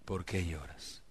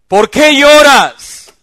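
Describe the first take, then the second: First: Much softer and lower, tender; gentle soft question. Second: Much higher and louder, drawn out slowly; loud mocking question. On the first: Acted. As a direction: ask it quietly, with care. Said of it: "le digo". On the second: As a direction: fling the question at her. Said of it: "mujeres llorando".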